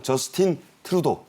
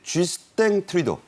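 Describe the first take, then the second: First: The name is pronounced the English way. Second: The name is pronounced the French way. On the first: "영어로는 뭐 저스틴 트루도 이렇게 하죠" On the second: "불어식 발음입니다"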